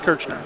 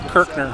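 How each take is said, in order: First: The middle consonant is a 'ch' sound. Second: The middle consonant is a hard 'k' sound. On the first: The speaker calls it wrong. "not Kirchner" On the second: The speaker calls it right. "His last name was Kirkner"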